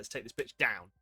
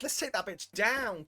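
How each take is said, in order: First: It sounds grim and menacing, like a threat. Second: It sounds like playful, excited girly chat.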